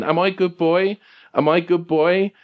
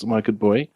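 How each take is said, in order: First: High, needy talking-dog question; Sergeant Pupper. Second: Subdued, unsure talking-dog question; Sergeant Pupper. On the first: Anxious dog seeking approval, high pleading doggy voice. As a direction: plead high, lifting on "boy". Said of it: "Papa's is asking this question". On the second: Dog looks to his friend, asks in subdued doubt. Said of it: "kind of quieter and, and almost mumbled". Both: Acted.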